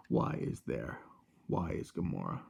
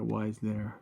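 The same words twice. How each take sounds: First: Low, whispered Thanos growl. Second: Said in the usual way. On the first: Pretend. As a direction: drop into a low breathy villain voice. Thanos joke, "Where is Gamora.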